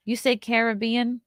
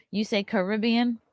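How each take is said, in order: First: "Caribbean" stressed CARE-uh-BEE-an; "Caribbean" with the first syllable rhyming with care; "Caribbean" as KARE-ih-BEE-in, first-syllable stress; Caribbean as said here. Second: "Caribbean" stressed kuh-RIB-ee-an; "Caribbean" with the weight on RIB; "Caribbean" as kuh-RIB-ee-in, second-syllable stress; other Caribbean. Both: Shown as a demonstration.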